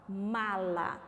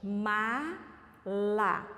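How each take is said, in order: First: "Mala" said once, fairly deliberate and low; measured. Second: "Mala" very slowly, a gap between the syllables. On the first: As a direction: present "Mala" as one word, carefully. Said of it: "Agora, olha essa palavra". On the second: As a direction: stretch "Mala" into two separate beats. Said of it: "Vamos repetir pausadamente?". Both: Shown as a demonstration.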